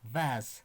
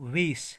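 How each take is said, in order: First: The word ends with a z sound. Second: The word ends with an s sound. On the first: The speaker calls it right. "इसकी correct pronunciation है वी आ ज" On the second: The speaker calls it wrong. "मगर वेस is the wrong pronunciation"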